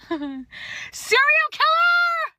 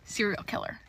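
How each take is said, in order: First: High, loud laughing yell on killer; hammed-up horrified shout. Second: Flat, soft verdict; quiet deadpan judgement; low deadpan. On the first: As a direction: shriek it in mock horror. Verdict repeated as shout. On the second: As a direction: mutter it darkly. Verdict, first take low. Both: Real, not acted.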